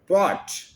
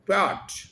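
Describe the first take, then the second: First: The vowel is a full 'o' sound. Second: The vowel is a full 'o' sound.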